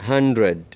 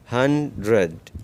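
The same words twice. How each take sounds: First: Said in the usual way. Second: hundred said slowly, each syllable apart; slow teacher demo of hundred; slow model word. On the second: Shown as a demonstration. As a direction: drag hundred out for learners. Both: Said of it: "आगे देखिए".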